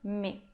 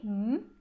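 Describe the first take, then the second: First: The M is followed by a short vowel. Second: Only the consonant M is heard, no vowel. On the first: The shva is pronounced and opens a syllable. "ler como me" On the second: The shva is silent and closes the syllable. "só o som do M"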